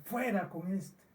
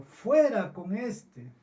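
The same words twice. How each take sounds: First: "Fuera con este" said softer, as a lament; preacher quietly grieving the crowd's rejection; grieving repeat. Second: Slow, higher, louder "Fuera con este" as a mock crowd cry; preacher voicing the mob's demand, mock shouted. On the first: Real, not acted. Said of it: "Son palabras para llorar". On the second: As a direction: call out "Fuera" like an angry crowd, drawn out. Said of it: "gritaron a una diciendo".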